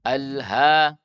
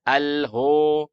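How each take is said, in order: First: The vowel is open and light. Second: The vowel is rounded and heavy. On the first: The speaker calls it right. "ha tipis" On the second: The speaker calls it wrong. "Tidak dibaca al-ho"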